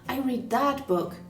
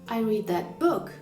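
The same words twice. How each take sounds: First: The stress falls on the word that. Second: The stress falls on the word book. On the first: It was this particular book, not another. "not the other one" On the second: It was the book, not something about it. "I didn't opt for the podcast about it"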